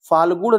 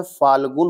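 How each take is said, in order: First: फाल्गुण ending in a retroflex ण; wrong spelling read out. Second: फाल्गुन ending in a plain dental न; correct spelling, slowly. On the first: Teacher reading the wrong form to students. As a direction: say फाल्गुण with a hard retroflex n at the end. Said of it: "नहीं होता है". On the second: Teacher slowly giving students the correct form. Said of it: "होता है". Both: Shown as a demonstration.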